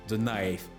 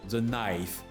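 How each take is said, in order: Both takes have the same delivery.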